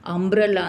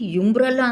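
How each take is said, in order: First: The word begins with an 'uh' sound. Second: The word begins with a 'yu' sound. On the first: The speaker calls it right. "ಅಂಬ್ರಲ್ಲ ಅಂತ ಹೇಳ್ತೀವಿ" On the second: The speaker calls it wrong. "ಯುಂಬ್ರಲ್ಲ ಅಂತ ಹೇಳಲ್ಲ"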